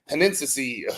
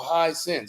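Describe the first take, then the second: First: The name begins with the sound 'hen'. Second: The name begins with the sound 'high'. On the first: The speaker calls it wrong. "calling it Henensi Henensi" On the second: The speaker calls it right. "oh no, high sense"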